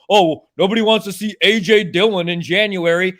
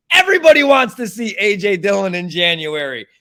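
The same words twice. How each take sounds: First: Mock-parrot a claim he rejects; mildly exasperated, mocking parroting; scoffing imitation of other people's excuse; mocking quote. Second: Loud, high start on EVERYBODY, falling away; ranting, fed-up contradiction; exasperated rebuttal. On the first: Mocks claim, then rebuts it. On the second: Real, not acted. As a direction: hit EVERYBODY hard in indignant correction. Angry rebuttal of the quote.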